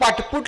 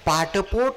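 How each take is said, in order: First: The last syllable has a 'u' vowel. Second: The last syllable has an 'o' vowel. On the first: The speaker calls it wrong. "पाठपुट नाही" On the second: The speaker calls it right. "ते पाठ आणि पोट असं आहे"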